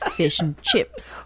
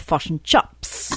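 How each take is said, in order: First: The vowels are pronounced in a standard accent. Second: The vowels are flattened in a New Zealand accent.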